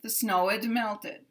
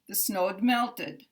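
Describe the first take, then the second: First: The contraction is a separate id syllable. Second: The contraction is a bare d sound. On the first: "But also we could hear" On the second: "Following the rule"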